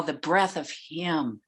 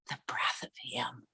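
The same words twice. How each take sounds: First: Said in the usual way. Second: Hushed, breathy whisper. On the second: Real, not acted. Honoring her teacher's breath, a reverent whisper. Speaker repeats phrase, then whispers it.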